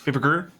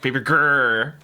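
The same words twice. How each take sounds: First: The R sound is plain and short. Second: The R sound is rolled like a roar. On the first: The speaker calls it wrong. "I can't just go like" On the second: The speaker calls it right. "I have to go like"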